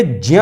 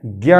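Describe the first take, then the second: First: ज्ञ said slowly as a j blended into ny; correct pronunciation. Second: ज्ञ said as gya, with a hard g; common wrong pronunciation. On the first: Teacher slowly giving students the proper ज्ञ. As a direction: say ज्ञ as j-nya, not gya. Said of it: "तो ये ज्ञ है". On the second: Teacher showing students the wrong ज्ञ. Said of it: "ज्ञ नहीं है". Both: Shown as a demonstration.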